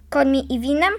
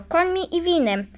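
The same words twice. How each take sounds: First: "Końmi i winem" rising at the end as a question; scoffing echo question. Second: Said in the usual way. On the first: A narrator's reading. Driver scoffingly echoes the threat. („Końmi i winem” jako drwiące pytanie, z wznoszącą intonacją)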